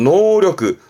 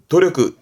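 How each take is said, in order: First: The word begins with an N sound. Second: The word begins with a D sound. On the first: The speaker calls it wrong. "보통 많이 실수하시는 것 중에서" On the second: The speaker calls it right. "노력은 도력그"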